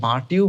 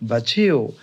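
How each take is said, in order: First: The t and y are said as separate sounds. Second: The t and y merge into a ch sound. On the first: The speaker calls it wrong. "এখানে বাট ইউ বলবো না" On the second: The speaker calls it right. "টি এর পরে যদি ওয়াই তুমি পাও তাহলে সেই ক্ষেত্রে চ উচ্চারণ করবে"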